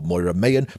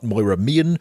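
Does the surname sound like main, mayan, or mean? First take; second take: mayan; mean. First: The surname sounds like two syllables, my-an. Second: The surname sounds like the word mean. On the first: "or Moira Mayan" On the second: "Not Moira Mean"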